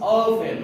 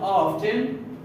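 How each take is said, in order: First: The T sound is silent. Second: The T sound is pronounced. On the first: The speaker calls it right. "the T is a silent, so I don't pronounce the T, it becomes often" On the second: The speaker calls it wrong. "not often"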